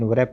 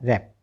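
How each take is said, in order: First: The word begins with a W sound. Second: The word begins directly with an R sound. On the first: The speaker calls it wrong. "व्रैप नहीं बोलेंगे क्योंकि यहाँ पर तो डब्ल्यू silent है" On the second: The speaker calls it right. "तो रहा रैप"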